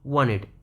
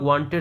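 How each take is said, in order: First: The t after the n is dropped entirely. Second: The t after the n is clearly pronounced. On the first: This is how native speakers say it. "But ये लोग कैसे बोलेंगे, वांटेड, वांटेड, कुछ इस तरह से" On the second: This is how local learners usually say it. "हम लोग वांटेड बोलते हैं"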